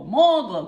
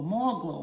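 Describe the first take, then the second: First: Loud burst on more glow; emphatic. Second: Said in the usual way. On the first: Shown as a demonstration. Applying makeup for viewers, loud playful burst. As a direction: punch it out with glee. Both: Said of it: "building on product".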